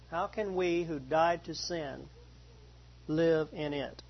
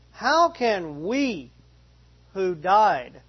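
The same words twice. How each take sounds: First: Said in the usual way. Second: How can "we" who died, with we pushed forward, slow and louder; stress on we. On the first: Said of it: "the verb in that first sentence". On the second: Shown as a demonstration. Pastor showing the class where the stress goes: lean on "we". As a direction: lean on "we", slowing right down. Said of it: "the we is pronounced".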